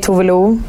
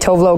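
First: The name is said with Swedish pronunciation. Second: The name is said with English pronunciation. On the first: "in Sweden, we say Tuve Lou" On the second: "people tend to say Tuvlo"

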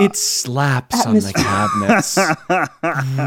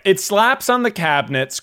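First: It is read in a sultry, seductive voice. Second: It is read in a plain, ordinary voice. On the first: "Can you read it with like a romance novel voice" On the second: "You're not really doing it"

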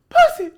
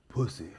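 First: It is said forcefully, from the chest. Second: It is said softly, without force.

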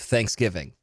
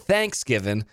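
First: The stress is on giv, the usual way. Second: The stress is on thanks, Southern style.

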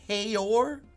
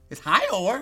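First: The first syllable sounds like 'hey'. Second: The first syllable sounds like 'hi'. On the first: "why the hell would that be hey?"

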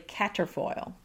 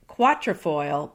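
First: The word starts with a plain 'k' sound. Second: The word starts with a 'kw' sound. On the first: The speaker calls it right. "but it's really caterfoil" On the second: The speaker calls it wrong. "you'll want to say quatrefoil"

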